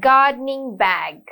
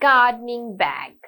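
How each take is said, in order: Both takes have the same delivery.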